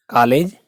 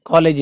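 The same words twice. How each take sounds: First: First कॉलेज with a long open vowel, like "kaalej"; कॉलेज said as "kaa-lej"; open English o. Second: कॉलेज with a rounded first vowel, like "kolej"; कॉलेज mispronounced as "ko-lej"; closed o mistake. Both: Shown as a demonstration. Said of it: "कॉलेज नहीं".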